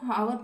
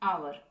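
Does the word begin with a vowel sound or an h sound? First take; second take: h sound; vowel sound. First: The word begins with a sounded h. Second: The word begins directly with a vowel sound. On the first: The speaker calls it wrong. "जो कि बिल्कुल गलत है" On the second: The speaker calls it right. "ये क्या होता है"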